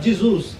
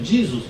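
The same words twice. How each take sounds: First: The name is said the Italian way. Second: The name is said the American English way. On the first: "O italiano vai pronunciar" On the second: "um americano"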